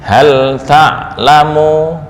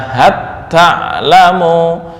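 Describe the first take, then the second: First: The L is pronounced clearly before the T. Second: The L merges into a doubled T sound. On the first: "boleh idgham atau idhar" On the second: "boleh dibaca"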